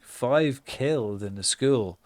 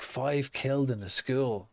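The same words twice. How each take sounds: First: Slow, measured reading of "Five killed in the school"; headline read out. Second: "Five killed in the school?" as a stunned, disbelieving question; shocked repeat. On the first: Shown as a demonstration. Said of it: "I just see the newspaper and it's like". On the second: Retold or imitated. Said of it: "I walk past and I go".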